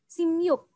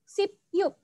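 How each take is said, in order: First: The first syllable ends in an m sound. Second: The first syllable ends in a p sound. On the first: The speaker calls it right. "membacanya adalah sim yuk" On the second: The speaker calls it wrong. "enam belas itu sip yuk, tetapi"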